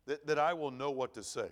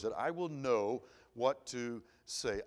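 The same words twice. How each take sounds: First: Said in the usual way. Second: Drawn out slowly, each word weighed; slow it right down to drive the prayer home; slow emphatic repeat. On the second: Retold or imitated. Preacher repeating a friend's prayer, slowly and deliberately.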